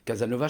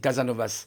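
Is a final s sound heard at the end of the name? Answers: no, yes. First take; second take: no; yes. First: The name ends without a final s sound. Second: The name ends with a final s sound. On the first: The speaker calls it wrong. "ça ne se dit pas Casanova" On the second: The speaker calls it right. "je crois que c'est Casanovas"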